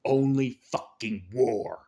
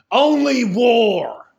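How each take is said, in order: First: Low grim repeat. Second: Loud, slow and higher, drawn out; climactic shout. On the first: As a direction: lower and slow, pulled back after the yell. Echo after the shout. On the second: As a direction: yell it slowly at full force. Climax of the rant. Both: Real, not acted.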